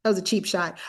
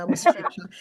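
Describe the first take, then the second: First: Said in the usual way. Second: Laughing partway through the phrase; a laugh slips out mid-sentence at your own jab; amused laugh breaking into the words. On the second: Real, not acted. Laughs mid-line at own joke.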